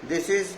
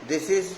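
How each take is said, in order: No difference in how they are said.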